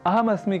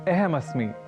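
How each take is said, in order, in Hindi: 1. पहला स्वर स्पष्ट 'a' ध्वनि है। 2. पहला स्वर 'e' की तरह उच्चरित होता है। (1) "अहम अस्मि के बजाय" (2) "अ को ए इस रूप में उच्चारित कर दूं"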